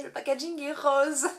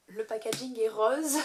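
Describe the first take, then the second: First: "le packaging est rose" repeated higher and louder, leaning on "rose"; insistent repeat. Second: Said in the usual way. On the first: Shown as a demonstration. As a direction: say it again with playful insistence on "rose". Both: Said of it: "Je tiens quand même à le préciser".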